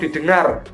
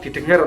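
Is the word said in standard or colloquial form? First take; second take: standard; colloquial. First: The word is said in its standard form. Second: The word is said in a colloquial form. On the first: The speaker calls it right. "Penulis menggunakan kata baku didengar" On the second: The speaker calls it wrong. "bukan didengar"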